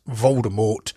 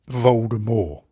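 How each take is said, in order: First: The final T is clearly pronounced. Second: The final T is left silent. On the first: This is how most people ended up saying the name. "everyone was pronouncing him in as Voldemort" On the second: This is how the author originally intended the name. "and not Voldemort"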